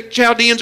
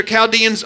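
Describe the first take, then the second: First: Put-on Chaldeans starting with CH as in "child"; CH pronunciation. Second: Chaldeans starting with a hard K sound; hard K pronunciation. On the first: Preacher giving both options, Chaldeans said first with CH. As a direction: say Chaldeans as "chal-DEE-ans". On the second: Preacher giving both options, Chaldeans said second with a K. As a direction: say Chaldeans as "kal-DEE-ans". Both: Shown as a demonstration. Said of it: "however you want to pronounce it".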